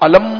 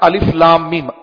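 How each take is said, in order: First: The letters are blended into one short word. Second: Each letter is named separately, one after another. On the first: The speaker calls it wrong. "علم نہیں پڑھتے آپ" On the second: The speaker calls it right. "الف کو الگ پڑھتے ہیں، لام کو الگ پڑھتے ہیں، میم کو الگ پڑھتے ہیں"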